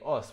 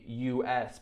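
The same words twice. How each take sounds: First: It is said as one single word. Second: It is said as two separate letters. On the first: The speaker calls it wrong. "we wouldn't say us" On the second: The speaker calls it right. "we would say US"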